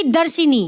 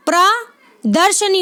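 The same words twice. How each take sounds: First: दर्शिनी with an i after sh, "darshi-nee"; wrong pronunciation. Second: प्रदर्शनी slow, प्र apart, then दर्शनी with "sha-nee"; correct pronunciation. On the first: Teacher naming the form to avoid, shi sounded. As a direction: say दर्शिनी with shi instead of sha. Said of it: "ना कि". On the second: Teacher contrasting it with the mistake, slow correct form. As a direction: split प्रदर्शनी after प्र, short a after sh. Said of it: "ना कि दर्शिनी". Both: Shown as a demonstration.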